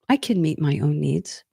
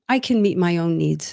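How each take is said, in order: First: It is said in a calm, assured tone. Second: It is said in a defensive, dismissive tone. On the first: The speaker is secure in looking after their own needs. The speaker calls it right. "I'm able to take care of myself emotionally" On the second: The speaker rejects help from anyone else. The speaker calls it wrong. "Or with a different tonality"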